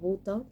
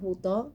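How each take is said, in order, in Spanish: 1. El acento cae en la primera sílaba. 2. El acento cae en la última sílaba. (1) "se entiende de alguna manera si uno lo pronuncia eh, como buto" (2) "yo creo que la correcta es butó"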